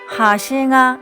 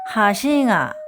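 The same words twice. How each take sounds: First: The pitch stays high through the final particle. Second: The pitch drops on the final particle. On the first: It means edge. "가장자리는 하싱아 올라간 상태에서 마무리됩니다" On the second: It means bridge. "다리는 하싱아 조사가 내려오고"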